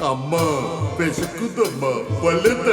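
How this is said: It is said forcefully in a deep, bass voice.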